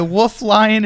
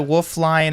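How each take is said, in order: First: Lion is said clearly with both syllables. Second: Lion is slurred so it sounds like line. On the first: The speaker calls it right. "You need to enunciate a little better" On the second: The speaker calls it wrong. "That sounded like wolf line"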